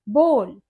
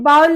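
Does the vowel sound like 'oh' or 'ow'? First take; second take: oh; ow. First: The vowel sounds like 'oh', as in go. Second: The vowel sounds like 'ow', as in cow. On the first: The speaker calls it right. "इसे हम बोल pronounce करते हैं" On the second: The speaker calls it wrong. "लेकिन ये बाउल नहीं होता"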